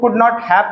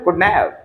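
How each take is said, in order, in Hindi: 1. हर शब्द अलग-अलग और पूरा बोला जाता है। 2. 'not have' एक छोटे से शब्दांश में दबाकर बोला जाता है।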